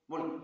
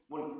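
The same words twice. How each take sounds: The two takes are said the same way.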